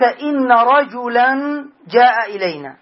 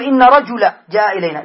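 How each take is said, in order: First: Slow, drawn-out رجلا as rajulan; رجلا with full nunation, "rajulan"; with tanween. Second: Louder, with رجلا as rajula, no n; without tanween. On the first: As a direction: sound the final -an of رجلا, slowly. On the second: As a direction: end رجلا on a bare short -a. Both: Shown as a demonstration. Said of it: "ما ستقول".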